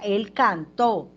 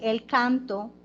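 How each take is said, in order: First: The stress is on the last syllable of canto. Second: The stress is on the first syllable of canto. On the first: It means he sang. The speaker calls it right. "¿cómo es la versión correcta?" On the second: It means the song. The speaker calls it wrong. "Si lo leo así"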